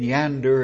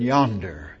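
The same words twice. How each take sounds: First: The first vowel is pronounced as an A. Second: The first vowel is pronounced as an O. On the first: The speaker calls it wrong. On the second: The speaker calls it right.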